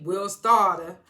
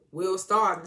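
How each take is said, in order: First: "Starter" loud and drawn out, ending in "ah"; slow, boastful imitation landing hard on "Starter"; catchphrase imitation. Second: Said in the usual way. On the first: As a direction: stretch "Starter" into a loud "stah-tah". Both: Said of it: "he kept saying".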